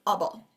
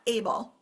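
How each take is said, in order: First: The first vowel is a weak schwa. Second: The first vowel is a full vowel. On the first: The speaker calls it right. "this we pronounce as able" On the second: The speaker calls it wrong. "not able"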